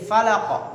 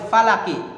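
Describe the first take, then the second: First: The word ends on a bare q consonant. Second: The word ends with a short i vowel. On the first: The reading stops at this word. "jadi sukun" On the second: The reading continues without stopping. "awalnya falaki"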